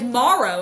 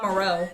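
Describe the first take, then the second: First: It is pronounced like the end of tomorrow. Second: It is pronounced unlike the end of tomorrow. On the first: The speaker calls it right. "I know that, like tomorrow" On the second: The speaker calls it wrong.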